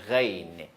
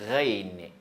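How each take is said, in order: The two takes are said the same way.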